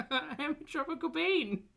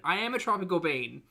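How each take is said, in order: First: Much higher, sing-song and playful. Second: Said in the usual way. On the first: Acted. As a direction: pitch it way up, teasing. Repeats line playfully.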